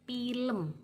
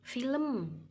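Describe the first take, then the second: First: The first sound is a p-like sound. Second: The first sound is a clear f. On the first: The speaker has little formal education. The speaker calls it wrong. "yang kurang berpendidikan" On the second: The speaker has formal education. The speaker calls it right. "yang berpendidikan formal"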